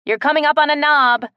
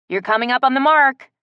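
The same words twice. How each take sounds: First: Loud warning call. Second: Loud call upward. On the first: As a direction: warn her from below. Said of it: "Kellen warned". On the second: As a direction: call it up the tree. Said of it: "called up to her". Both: A narrator's reading.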